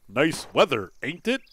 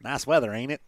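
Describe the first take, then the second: First: Mock stilted reading without a country accent, tag lifted; over-enunciate each word, no Southern accent at all. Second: Quick, casual Southern country accent. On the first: Player mocking the game's reading, stilted, no country accent. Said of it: "do the country accent instead of, like". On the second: Shown as a demonstration. Player showing the wished-for reading, country accent. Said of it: "do the country accent instead of".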